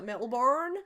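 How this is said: It is said in a foreign accent.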